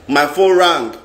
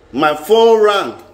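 First: Said in the usual way. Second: Slowed right down, each word landing; slow dramatic beat. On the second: Shown as a demonstration. Telling viewers about the fateful call, slow and dramatic. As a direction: draw it out like suspense is building.

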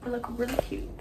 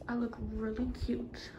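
First: Said in the usual way. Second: Soft unvoiced whisper to self. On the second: Real, not acted. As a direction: breathe it quietly to yourself.

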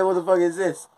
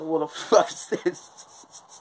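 First: Louder, high, incredulous demand; retold shock. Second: Slow, high, laughing disbelief; retold shock. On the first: Repeating it to his girlfriend, louder incredulous demand. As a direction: really press her for an answer this time. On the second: To his girlfriend at the market, slow laughing disbelief. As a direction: gasp it out through a laugh at the sight. Handed a live chicken, shocked.

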